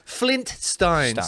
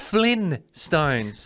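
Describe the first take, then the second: First: A t sound is heard before stones. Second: No t sound is heard before stones. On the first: The speaker calls it right. "it's flint stones" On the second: The speaker calls it wrong. "Which doesn't even sound right to me"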